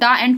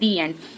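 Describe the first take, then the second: First: 'The' is said with a short 'uh' vowel. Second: 'The' is said with a long 'ee' vowel. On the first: The speaker calls it wrong. "हम द end कभी नहीं बोलते" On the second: The speaker calls it right. "हम बोलते हैं दी एंड"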